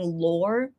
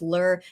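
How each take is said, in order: First: The vowel sounds like the one in 'lore'. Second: The vowel sounds like the one in 'lur'. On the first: "the correct pronunciation being lore" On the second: "if I keep pronouncing it as lur"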